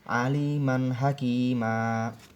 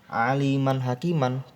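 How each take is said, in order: First: The last word ends with a long vowel. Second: The last word ends with an n sound. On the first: The speaker calls it right. "tetapi apa? Aliman hakima" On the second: The speaker calls it wrong.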